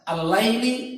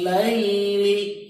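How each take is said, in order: First: The vowel in laili is clipped short. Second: The vowel in laili is held long. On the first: The speaker calls it wrong. "tidak boleh dibaca asal nyenggol misalnya. Misalnya al-laili tidak boleh" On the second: The speaker calls it right. "karena mad itu prinsipnya dibaca panjang. Maka di sini waqtilafil laili"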